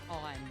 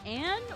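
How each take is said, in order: First: The name has an open 'o'-like vowel. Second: The name has the American flat 'a' vowel. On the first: "you do really say it on" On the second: "more like the American Anne"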